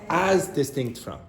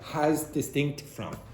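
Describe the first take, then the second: First: The first word starts without an h sound. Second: An h sound is added before the first word. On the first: The speaker calls it right. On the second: The speaker calls it wrong.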